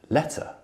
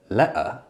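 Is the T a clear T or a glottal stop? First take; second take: clear T; glottal stop. First: The T is clearly released with a puff. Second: The T is stopped in the throat. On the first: It takes more effort. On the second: It takes less effort. "it's easier to say"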